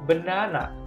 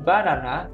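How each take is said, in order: First: The first syllable has a weak 'uh' vowel. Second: The first syllable has an open 'ah' vowel. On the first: The speaker calls it right. "tapi B. B, pakai E ya" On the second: The speaker calls it wrong. "bacanya bukan banana"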